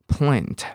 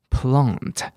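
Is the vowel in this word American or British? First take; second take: American; British. First: The vowel is a short front 'a' sound. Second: The vowel is a long open back 'ah' sound. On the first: "像植物这个字叫plant" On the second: "那英国人就比较常会念成plant"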